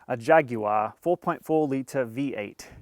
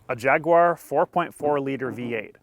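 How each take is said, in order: First: It is said in a British accent. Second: It is said in an American accent.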